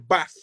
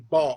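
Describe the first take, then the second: First: The vowel is short and clipped. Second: The vowel is long and drawn out. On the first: This is how it is said in Nottingham. "we like would say here bath" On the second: This is how it is said in London. "they say bath"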